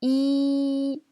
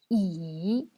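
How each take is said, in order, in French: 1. Le ton reste haut et plat. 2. Le ton plonge bas puis remonte. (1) "C'est le premier ton" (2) "C'est le troisième ton"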